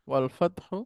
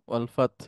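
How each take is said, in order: First: The last word ends with a short vowel. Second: The last word ends on a bare consonant. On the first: The reading continues without stopping. "শেষে যদি জবর থাকে, জের থাকে বা পেশ থাকে" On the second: The reader stops at this word. "এইখানে এসে যদি আমি থেমে যাই তাহলে শেষ অক্ষরটার উপরে সুকুন ধরে পড়তে হবে"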